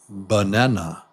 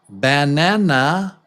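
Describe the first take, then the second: First: The unstressed vowels are reduced to quick schwas. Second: Every vowel is pronounced fully and slowly. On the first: The speaker calls it right. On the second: The speaker calls it wrong.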